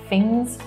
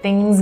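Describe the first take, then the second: First: The word begins with an 'f' sound instead. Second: The word begins with a clear 'th' sound.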